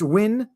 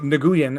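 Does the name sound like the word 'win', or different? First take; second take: win; different. First: The name sounds like the word win. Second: The name does not sound like win. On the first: The speaker calls it right. "it's Win" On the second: The speaker calls it wrong. "I pronounced it Nguyen until I was corrected"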